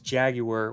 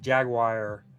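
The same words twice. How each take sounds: First: It uses the pronunciation meant for the carmaker. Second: It uses the pronunciation meant for the animal. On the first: It refers to the car manufacturer. "when you're talking about the British car manufacturer" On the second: It refers to the animal. "when you're talking about the animal"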